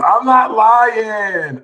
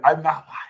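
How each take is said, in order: First: High, slow, louder; laughing insistence. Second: Said in the usual way. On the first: Real, not acted.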